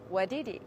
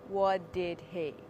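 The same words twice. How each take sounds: First: The words are said fast and run together. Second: The words are said slowly and separately. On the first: The speaker calls it right. "Speak fast. Say" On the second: The speaker calls it wrong. "Don't say"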